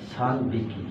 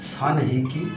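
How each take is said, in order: First: The counter begins with a b sound. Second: The counter begins with an h sound. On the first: The speaker calls it right. "উচ্চারণটা চেঞ্জ হয়ে যাবে, সান বিকি হবে" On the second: The speaker calls it wrong. "সান হিকি না হয়"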